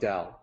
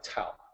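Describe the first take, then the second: First: The word begins with a D sound. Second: The word begins with a T sound. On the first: The speaker calls it right. "the correct way to say it, I like DAO with the uh, with a D sound" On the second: The speaker calls it wrong. "The incorrect way is to say it like Tao"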